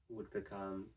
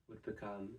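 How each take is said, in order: Both takes have the same delivery.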